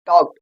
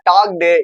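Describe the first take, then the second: First: The -ed ending adds no extra syllable. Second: The -ed ending is said as an extra syllable. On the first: The speaker calls it right. "அந்த ஈடிங்கிறது silent ஆகணும்" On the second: The speaker calls it wrong. "இந்த மாதிரிலாம் சொல்லாம"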